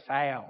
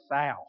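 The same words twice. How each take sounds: First: South drawn out in a lower Southern US drawl. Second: Said in the usual way. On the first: Shown as a demonstration. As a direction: say South like a North Carolina local, low and stretched. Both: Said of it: "you have to say it that way".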